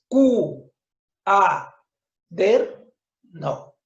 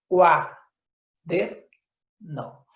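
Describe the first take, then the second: First: The word is split into four syllables. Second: The word is split into three syllables. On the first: The speaker calls it wrong. "Dices Q, A, der, no" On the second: The speaker calls it right. "Lo correcto es decir qua, der, no"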